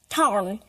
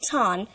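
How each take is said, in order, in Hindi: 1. स्वर के बाद का r उच्चारित किया जाता है। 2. स्वर के बाद का r छोड़ दिया जाता है। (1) "But an American, I'll pronounce tarn" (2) "we turn to drop it as in British and speak it tan"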